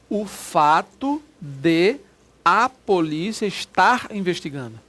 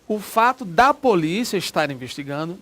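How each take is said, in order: First: De and a are said as two separate words. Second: De and a are merged into one syllable. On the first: The speaker calls it right. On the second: The speaker calls it wrong. "Eu não posso dizer"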